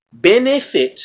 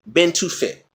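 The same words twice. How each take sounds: First: "Benefit" pulled apart with a clear "eh" in the middle; higher, deliberate "ben-EH-fit"; stressed "eh" sound. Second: "been to fit" with "too" replacing the "eh"; "to" sound. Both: Shown as a demonstration. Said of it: "the eh and the to".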